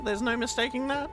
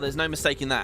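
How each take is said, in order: First: It is read in a put-on cat-like voice. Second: It is read in the speaker's normal voice. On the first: The speaker calls it right. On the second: The speaker calls it wrong.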